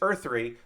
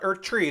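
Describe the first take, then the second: First: The second word sounds like 'three'. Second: The second word sounds like 'tree'. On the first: The speaker calls it right. "It's Earth three" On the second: The speaker calls it wrong. "It's not Earth Tree"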